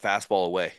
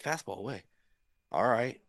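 First: Said in the usual way. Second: Much softer, reluctant acceptance of the call; hushed doubtful echo. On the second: Retold or imitated. Pitcher taking the catcher's call, quiet and reluctant. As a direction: say it softly, half to yourself.

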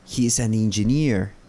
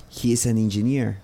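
Both takes have the same delivery.

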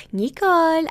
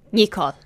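First: High, drawn-out imitation of mom; mom's cheery call. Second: Dropped, exasperated name-call; imitated annoyed mom. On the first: Mom phones her daughter, high put-on voice. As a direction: imitate a mother calling out sweetly. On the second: Mom reacts to daughter's allergy, imitated exasperation. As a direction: imitate a fed-up mother. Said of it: "And she got so annoyed".

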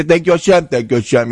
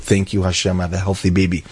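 First: Higher, sing-song routine thank you; rote mock thanks. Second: A softer, hushed, sincere thank you; heartfelt thanks. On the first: Mocking everyone's routine thanks to Hashem, sing-song. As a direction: rattle it off by habit, no feeling. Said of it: "But by you, it was so real". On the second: Retold or imitated. Father at the Kosel thanking God for his baby, hushed and heartfelt. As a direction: murmur it like a grateful father at the Wall. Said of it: "he was crying his eyes out".

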